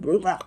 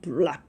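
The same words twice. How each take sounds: First: The word is said lightly, near the front. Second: The word comes up deep from the throat. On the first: This is how Koreans say it. The speaker calls it wrong. "우리는 블랙 블랙 이러는데" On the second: This is how native speakers say it. The speaker calls it right. "얘네들 블랙 블랙 ... 목구멍 좌속에서 뭐가 발음이 막 올라오는"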